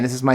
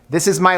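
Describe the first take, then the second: First: It is spoken at a normal volume. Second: It is spoken at a loud volume. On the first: "this is my normal voice" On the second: "This is my louder voice"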